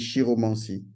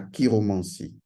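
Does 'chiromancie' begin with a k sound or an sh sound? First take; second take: sh sound; k sound. First: The word begins with a soft sh sound. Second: The word begins with a hard k sound. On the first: The speaker says it this way for fun. "je m'amuse à dire chiromancie" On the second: This is the usual pronunciation. "Beaucoup l'appellent la chiromancie"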